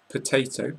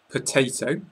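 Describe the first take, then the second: The two takes are said the same way.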